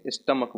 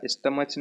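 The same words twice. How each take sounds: First: स्टमक ending in a hard "k"; correct "k" ending. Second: स्टमच ending in "ch" as in church; wrong "ch" ending. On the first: Teacher gives students the right pronunciation, स्टमक with final "k". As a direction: say स्टमक as "stuh-muck". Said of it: "स्टमक बोलेंगे". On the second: Teacher shows students what not to say, स्टमच with final "ch". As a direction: say स्टमच as "stuh-mutch". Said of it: "नहीं बोलेंगे". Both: Shown as a demonstration.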